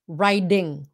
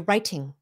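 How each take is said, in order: First: The middle consonant is a soft D sound. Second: The middle consonant is a clear T sound. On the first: This is the American way of saying it. "But American English, it's writing with a D" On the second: This is the British way of saying it. "So when they say writing, they say writing. Just like the way the British"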